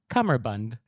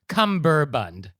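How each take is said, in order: First: There is no b sound after the m. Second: There is a b sound after the m. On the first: The speaker calls it right. "It's cummerbund" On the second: The speaker calls it wrong. "it's not cumberbund"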